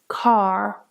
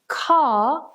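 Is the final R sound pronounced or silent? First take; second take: pronounced; silent. First: The R sound at the end is pronounced. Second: The R sound at the end is silent. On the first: "in American English, they pronounce it as car" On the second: "in British English, the word car is pronounced without the R"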